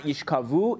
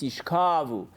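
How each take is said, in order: First: "yishkavu" with the stress on the last syllable, VU; wrong final stress. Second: "yishkavu" with the stress on the middle syllable, KA; stress on the kaf. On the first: Teacher showing the wrong accent, "yishkavu" stressed on final VU. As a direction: lean on the end of "yishkavu", rising. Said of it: "So it's not yishkavu". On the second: Teacher correcting the accent, "yishkavu" stressed on middle KA. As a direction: stretch KA in "yishkavu", then fall. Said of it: "The accent is on the kaf". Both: Shown as a demonstration.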